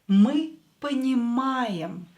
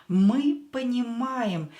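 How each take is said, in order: Both takes have the same delivery.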